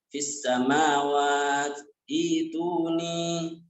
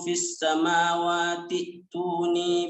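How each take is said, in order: First: It stops and restarts the last word. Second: The words run together without stopping. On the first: "Kalau waqaf dibaca fis samawat ituni" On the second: "Tapi kalau kita wasol menyambung ya, tetap seperti biasa"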